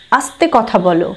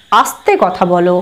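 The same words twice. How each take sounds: The two takes are said the same way.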